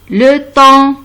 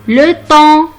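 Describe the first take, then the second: No difference in how they are said.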